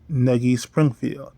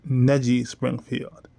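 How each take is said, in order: First: The G in Negi is hard. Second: The G in Negi is soft. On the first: The speaker calls it right. "But I obviously don't pronounce it that way" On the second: The speaker calls it wrong. "I always say ... which is incorrect"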